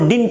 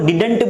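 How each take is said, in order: First: No vowel is heard between d and n. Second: An extra vowel is heard between d and n. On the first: The speaker calls it right. "वो डिंट होता है" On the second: The speaker calls it wrong. "लोग did not को डिडंट बोल देते हैं"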